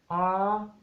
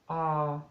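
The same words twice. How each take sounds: First: The pitch starts high and rises higher. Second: The pitch stays level in the middle. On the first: "the high tone ... it starts high and it goes higher" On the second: "the middle tone, or mid tone, flat tone"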